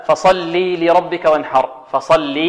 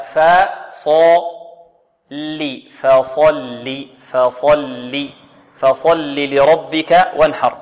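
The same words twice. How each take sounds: First: "فصل" with the final i wrongly stretched into a long ee; beginners' lengthening error. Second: "فصل" very slow, thin ف, thick ص, short final i; light fa, heavy sad. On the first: Teacher imitates beginners' mistake, wrongly lengthened lam vowel. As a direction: say "فصلي" with a long ya before "لربك". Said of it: "هنا خطأ يقع من بعض". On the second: Teacher models correct verse for students, slow light fa, heavy sad. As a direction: stretch out "فصل لربك", keeping the lam's kasra short. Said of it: "هكذا". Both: Shown as a demonstration.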